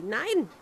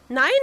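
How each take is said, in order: First: "nein" dropped firmly downward, final; a flat-out falling "nein". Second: "Nein" lifted upward as a protest; a quick upward "Nein"; rising nein. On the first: Princess closing off the frog's wish, falling "nein". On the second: Princess refusing the frog's wish, rising "Nein". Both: A narrator's reading. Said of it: "rief sie".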